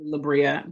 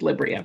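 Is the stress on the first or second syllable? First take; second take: second; first. First: The stress is on the second syllable. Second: The stress is on the first syllable. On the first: The speaker calls it wrong. "a lot of people say Libria" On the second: The speaker calls it right. "So the stress is on the first syllable"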